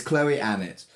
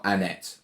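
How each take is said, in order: First: ANNETTE as ANN-it, first syllable stressed; correct pronunciation. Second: ANNETTE as ann-ET, stress at the end; wrong pronunciation. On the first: Co-host restating the right name to friends, front-stressed Annette. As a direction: say Annette with a weak, short second syllable. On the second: Co-host ruling out the wrong name, end-stressed Annette. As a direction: lean on the second syllable of Annette. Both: Shown as a demonstration. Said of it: "how to pronounce Annette".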